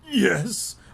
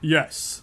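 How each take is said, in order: First: It is said in a weak, croaky voice. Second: It is said in a clear, confident voice.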